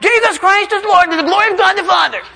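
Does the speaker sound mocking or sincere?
mocking. It is said in a mocking, insincere tone. The words are not meant. "He's not going to go like this"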